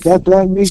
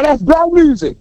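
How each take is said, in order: First: It is said plainly, without emphasis. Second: It is said with strong emphasis.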